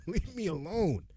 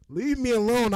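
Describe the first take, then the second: First: "Leave me alone" said through a laugh, half-joking; laughing plea. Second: "Leave me alone" yelled high and loud; playing the pushed student, shouting. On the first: Pretend. Student pretending to be pestered, laughing it out. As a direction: giggle as you beg them off. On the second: Acting as the student blocked from class, loud high yell. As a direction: bark it to shove them away. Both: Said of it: "That's how I feel".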